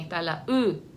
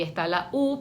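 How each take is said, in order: First: "U" said as the rounded front vowel ü; umlaut U. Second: Said in the usual way. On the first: Shown as a demonstration. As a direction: pronounce "U" like German ü. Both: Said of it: "los dos puntitos de arriba".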